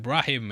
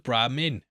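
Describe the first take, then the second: First: The word has no m sound before the end. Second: The word has an m sound before the end. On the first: The speaker calls it wrong. "misspeaking that in episode two and saying Brahim" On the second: The speaker calls it right. "I said it right that time!"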